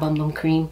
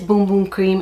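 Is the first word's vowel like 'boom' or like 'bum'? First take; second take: bum; boom. First: The first two words rhyme with 'hum'. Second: The first two words rhyme with 'room'. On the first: This is not how it is said in Brazil. The speaker calls it wrong. "it's not Bum Bum Cream" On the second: This is how it is said in Brazil. The speaker calls it right. "It is Boom Boom Cream, except that's how you say it in Brazil"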